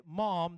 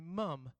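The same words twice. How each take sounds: First: Said in the usual way. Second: "mum" with an Australian short u vowel; Australian accent. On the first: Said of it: "they don't say "mom," they say". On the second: Shown as a demonstration. Preacher showing how the cartoon says it, Australian accent. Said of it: "they have Australian accents in the show".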